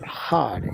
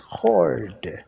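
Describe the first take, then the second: First: The R sound is soft or dropped. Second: The R sound is strongly pronounced. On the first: The speaker calls it wrong. "It's not hard" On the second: The speaker calls it right. "letter R must be hard"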